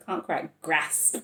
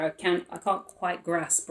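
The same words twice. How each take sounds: First: Slow, drawn-out northern English vowels on Can't quite grasp; northern English accent. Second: Northern English accent. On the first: Shown as a demonstration. Tarot reader repeating her own slip in a northern English accent. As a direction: say it again the way they do up north, slowly. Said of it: "it's an up north accent". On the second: Real, not acted. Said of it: "that, um, accent".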